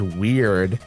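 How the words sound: The word is said in a disapproving tone. Being weird is a bad thing. "If somebody's weird, that's bad"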